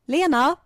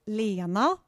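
First: The name has a melody used for calling someone. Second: The name has a melody used for introducing someone. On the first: Someone is being called over. "if someone's like calling my name, like, can you come here?" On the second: Someone is being introduced. "if they would maybe just present like, this is [name]"

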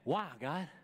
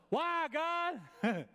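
First: It is said in a curious, inquiring tone. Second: It is said in a complaining, self-pitying tone. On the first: The speaker genuinely wants to know the purpose. "she started saying" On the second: The speaker is lamenting personal suffering. "Not like I was"

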